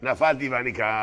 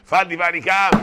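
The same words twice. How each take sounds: First: Slow. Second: Rousing. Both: Shown as a demonstration.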